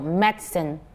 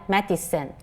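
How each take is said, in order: First: The middle vowel sound is left out. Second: The middle vowel sound is pronounced. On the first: "the British version would tend to omit the it sound in the middle" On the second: "rather than medicine"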